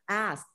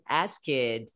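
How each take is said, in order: First: The word ends in a tight 'askt' cluster. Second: The word ends sounding like 'ask it'. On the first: The speaker calls it right. "No. Asked" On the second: The speaker calls it wrong. "because I tend to say ask it"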